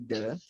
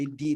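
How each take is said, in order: First: The word ends in a short 'uh' vowel. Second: The word ends in a long 'ee' vowel. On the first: The next word starts with a consonant sound. "Kalau dia diikutin sama konsonan itu bakal jadi the" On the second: The next word starts with a vowel sound. "kalau dia diikutin sama huruf vokal itu jadi di"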